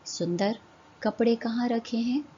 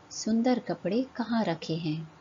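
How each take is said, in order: First: सुंदर rising, short pause, then the question; pause after सुंदर. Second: Said in the usual way. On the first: Shown as a demonstration. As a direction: break after सुंदर, then कपड़े lifted. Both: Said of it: "दिए गए वाक्यों को ध्यान से पढ़िए".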